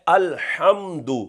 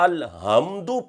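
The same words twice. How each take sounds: First: The h is made deep in the throat. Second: The h is a light, breathy sound. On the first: The speaker calls it right. "लफ्ज है अलहम्दु" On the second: The speaker calls it wrong. "यानी हा दो आंखों वाली पढ़ दी"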